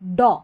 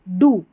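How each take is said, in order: First: The vowel is a short open 'aw' sound. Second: The vowel is a long 'oo' sound. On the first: "इसको अ पढ़ते हैं, तो डॉ डॉ ऐसे पढ़ेंगे" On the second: "वैसे डी ओ डू रहता है"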